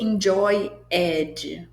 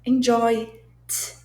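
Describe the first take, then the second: First: The ending is pronounced as an extra syllable. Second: The ending is a bare consonant sound. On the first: The speaker calls it wrong. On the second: The speaker calls it right.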